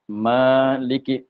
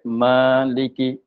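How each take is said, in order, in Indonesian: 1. Vokal pertama dibaca panjang. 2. Vokal pertama dibaca panjang.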